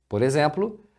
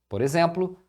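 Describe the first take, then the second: Both takes have the same delivery.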